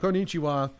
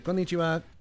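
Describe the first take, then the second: First: One syllable is emphasized, English style. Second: All syllables are said evenly without emphasis. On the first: "as a uh, native English speaker, you'd be like" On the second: "but in there they'd say"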